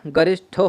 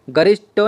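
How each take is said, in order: First: गरिष्ठो with aspirated "ṭho"; correct pronunciation. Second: गरिष्ठो with unaspirated "ṭo"; wrong pronunciation. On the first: Teacher correcting the word, गरिष्ठो with aspirated ending. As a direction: puff the final "shtho" of गरिष्ठो. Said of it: "गरिष्ठो होता है". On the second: Teacher showing the error, गरिष्ठो with unaspirated ending. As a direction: end गरिष्ठो in "shto", no puff. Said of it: "गरिष्ठो नहीं होता है". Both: Shown as a demonstration.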